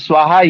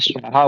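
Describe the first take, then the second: First: The word begins with a dental 's' sound. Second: The word begins with a palatal 'sh' sound. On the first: The speaker calls it right. "दंती सा है" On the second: The speaker calls it wrong. "उनका उच्चारण अशुद्ध था, तो उन्होंने इस वाले स्वाहा की जगह तालब्य शाह बोल दिया"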